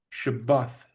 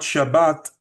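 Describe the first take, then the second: First: The word ends with a soft th sound. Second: The word ends with a hard t sound. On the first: This is the original heritage pronunciation. The speaker calls it right. "it's Shabbath" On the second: This is the modern mainstream pronunciation. The speaker calls it wrong. "it's not Shabbat"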